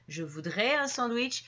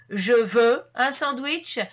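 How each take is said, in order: First: Softer, a courteous ask; gentle polite request. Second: Louder and slow, a blunt demand; curt ordering demand for a sandwich. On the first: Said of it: "on tombe dans la demande plus polie". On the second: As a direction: say it as a command, no softening. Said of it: "c'est vraiment comme un ordre". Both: Shown as a demonstration.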